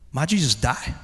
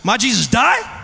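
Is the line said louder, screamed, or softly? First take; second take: softly; louder. First: It is said softly as a question. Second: It is said a little louder.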